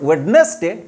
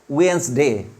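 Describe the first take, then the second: First: The d in the middle is sounded. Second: The d in the middle is silent. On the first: The speaker calls it wrong. "Not Wednesday" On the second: The speaker calls it right. "D is silent"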